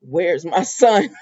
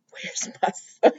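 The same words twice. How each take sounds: First: Drawn-out, voiced "Where's my son?"; slow menacing Sheila. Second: Slow, whispered "Where's my son?"; creepy whisper. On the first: Sheila demanding her son at the door, slow and ominous. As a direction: draw each word out slow and ominous. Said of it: "Sheila said". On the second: Retold or imitated. Sheila at Lee's door, a slow spooky whisper. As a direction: breathe it out slow like a lurking villain. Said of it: "and Sheila said".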